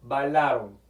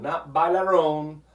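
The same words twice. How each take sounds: First: "Bailaron" with a light tapped Spanish r; correct pronunciation of bailaron. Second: "bailaron" said a little louder and slowly with a hard English r; wrong pronunciation of bailaron. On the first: Teacher correcting to a proper Spanish "Bailaron" with a tapped r. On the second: Teacher showing students a wrong English-style "bailaron". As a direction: demo the mistake "bailaron" with an English r sound. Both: Shown as a demonstration.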